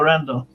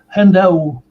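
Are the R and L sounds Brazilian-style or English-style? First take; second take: English; Brazilian. First: The R and L sound English. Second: The R and L sound Brazilian Portuguese. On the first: This is how the name is said in the United States. "nos Estados Unidos eu sou conhecido como Randall" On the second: This is how Brazilians end up saying the name. "vocês brasileiros fazem do R e do L um desastre"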